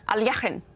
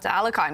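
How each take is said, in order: First: The name is pronounced the Russian way. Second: The name is pronounced the usual English way.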